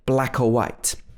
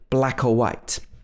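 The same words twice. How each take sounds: First: The word 'or' is reduced to a schwa. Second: The word 'or' is reduced to a schwa.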